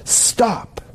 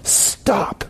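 First: A high, hushed, firm "Stop"; "Stop" said again for emphasis. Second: A breathless, hushed "stop"; hint at the meaning with "stop"; first "stop". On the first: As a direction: hold up a pause word: "Stop". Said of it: "it's like to say it twice". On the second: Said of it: "emphasizing the first word". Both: Shown as a demonstration.

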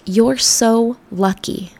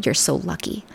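First: Slow, drawn-out mock gush; the classic line. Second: Softer, a little lower, rising at the end; disliked phrase. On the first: Quoting what people always tell her, drawn-out mock gush. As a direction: stretch it out like a gushing fan. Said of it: "Or the classic". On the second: Retold or imitated. Repeating the phrase she hates, quietly with a hint of distaste. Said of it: "I hate that phrase".

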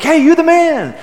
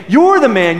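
First: High, loud, cheery praise; teammate compliment. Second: Louder, pointed accusation; upset accusation. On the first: Basketball teammate praising a big shot, cheerful and much higher. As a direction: hype up a buddy who just hit a big shot. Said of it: "we would often say to each other". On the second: Prophet Nathan accusing King David, louder and pointed. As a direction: pin the blame squarely on him. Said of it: "He is very upset". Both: Retold or imitated.

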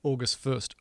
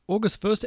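First: Said in the usual way. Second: Surprised. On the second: Real, not acted. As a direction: react like you can't believe it. Are you kidding me?.

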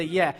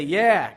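First: A loud shouted yeah. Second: A much louder, higher yeah; bigger shout. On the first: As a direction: call out yeah like a churchgoer. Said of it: "If you say". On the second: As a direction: belt out yeah to the rafters. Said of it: "you can go ahead and you can say". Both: Shown as a demonstration.

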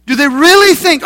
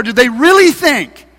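First: Louder scornful jeer, REALLY leaned on; louder mocking. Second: Scornful taunting question; mocking. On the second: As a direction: sneer at the builders' hope. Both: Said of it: "he's saying in a mocking voice".

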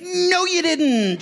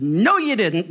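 First: Very high, drawn-out singsong call; mock calling out. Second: Said in the usual way. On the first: Pastor answering late arrivals across parking lot, mock calling out. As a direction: stretch each word as if calling across a lot.

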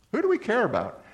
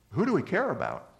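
First: "we" pitched high and punched; stress on we. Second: "do" lifted, the rest falling away; stress on do. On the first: Preacher pressing the church, leaning on "we". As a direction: hit the word "we" hard, up high. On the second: Preacher asking the church, stress on "do". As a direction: lean on the word "do" in the question. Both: Shown as a demonstration.

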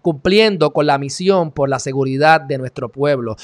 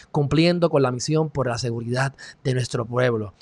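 First: Sarcastic, emphatic recital; mocking the motto. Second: Low, soft recital of a slogan; quoting his motto. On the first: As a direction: declaim the slogan at full voice. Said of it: "Mira qué hipocresía". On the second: Retold or imitated. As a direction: read the motto out quietly and solemnly. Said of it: "él dice".

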